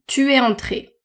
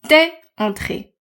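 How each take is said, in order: First: Tu and es are said as two full words. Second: Tu and es are merged into one syllable.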